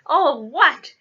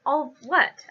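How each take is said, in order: First: Loud, higher thundering question; outraged booming echo; thundered. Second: Said in the usual way. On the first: A narrator's reading. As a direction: thunder it back in disbelief. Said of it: "Hagrid thundered". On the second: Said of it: "asked Harry".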